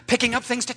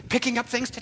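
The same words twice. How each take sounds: The two takes are said the same way.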